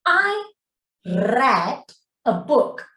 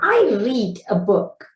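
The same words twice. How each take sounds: First: The word read rhymes with bed. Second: The word read rhymes with seed. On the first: The reading happened in the past. "The moment I pronounce it as read, sebutan dia read, eh? Dia adalah past tense" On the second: The reading happens habitually in the present. "To talk about my I here, present"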